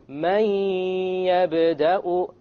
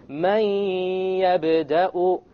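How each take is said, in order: No difference in how they are said.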